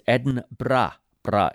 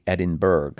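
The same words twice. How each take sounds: First: Edinburgh said Edin-bra with a rolled R after the B. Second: Edinburgh said the American way, ending burrow. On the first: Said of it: "the way to correctly say it is Edinburgh, bra, and you roll the R after the B". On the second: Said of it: "Americans are inclined to say". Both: Shown as a demonstration.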